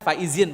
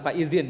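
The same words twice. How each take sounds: First: The middle consonant is a plain z sound. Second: The middle consonant is not a z sound. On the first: The speaker calls it right. "Harusnya kan faizin" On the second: The speaker calls it wrong. "bukan faizin itu"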